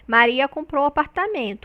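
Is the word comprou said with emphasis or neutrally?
neutral. No word gets extra emphasis; the sentence is neutral. It simply states what happened. "A gente não tem foco, a gente tem uma frase neutra"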